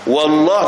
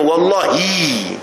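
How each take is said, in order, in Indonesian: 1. Kata ini tidak berakhir dengan vokal. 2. Kata ini berakhir dengan vokal 'ee'. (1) "wallah tak kena" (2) "dia kena wallahi"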